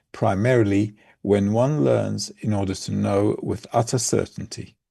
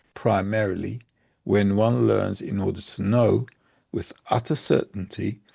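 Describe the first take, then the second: The two takes are said the same way.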